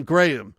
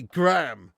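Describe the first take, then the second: First: "Graham" in two syllables, GRAY-um; British Graham. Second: "Graham" squashed into one syllable, gram; American Graham. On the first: Shown as a demonstration. Streamer showing the name Americans can't say, "Graham" as GRAY-um. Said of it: "They can't say the name Graham". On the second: Retold or imitated. Streamer mimicking how Americans say it, "Graham" as gram. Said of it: "They have to say Graham".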